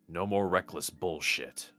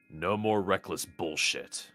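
Both takes have the same delivery.

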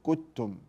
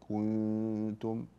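First: The n sound is merged into the following t. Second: The n sound is half-hidden with a nasal hum. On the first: The speaker calls it wrong. "ولا أدغم، لا أقول كتم" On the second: The speaker calls it right. "وإنما بين الإظهار والإدغام أقول كنتم"

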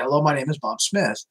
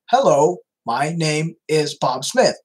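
First: It is said in a natural speaking voice. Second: It is said in a robotic-sounding American voice. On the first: "if I'm talking to you and I say" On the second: "it kind of sounds like"

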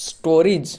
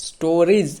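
No difference in how they are said.

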